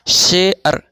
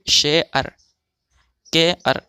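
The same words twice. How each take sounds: First: शेअर said with a clear e then a glide; example word. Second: शेअर and केअर said as she-ar, ke-ar; teacher reading the words aloud; pronunciation demo. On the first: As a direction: model शेअर syllable by syllable. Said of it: "जैसे". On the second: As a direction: model शेअर and केअर with the added a. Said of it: "अब इसका हम तलफ़ुज़ करेंगे". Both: Shown as a demonstration.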